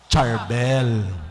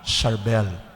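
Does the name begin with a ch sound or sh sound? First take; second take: ch sound; sh sound. First: The name begins with a ch sound. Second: The name begins with a sh sound. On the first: This is how English speakers read the letter C. The speaker calls it wrong. "pag binasa natin yung C, ano ang bag, bigkas natin?" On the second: This matches the pronunciation used in Lebanon. The speaker calls it right. "Para kapag S kasi, ang basa natin ay"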